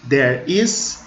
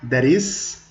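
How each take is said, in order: First: The words are said slower and kept separate. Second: The words are said faster, joined as one.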